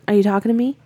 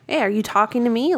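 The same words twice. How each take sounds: First: It is said flat and monotone, without feeling. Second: It is said lively, with expressive feeling. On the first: "it still really monotone. Though. There was like no feeling" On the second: "not like"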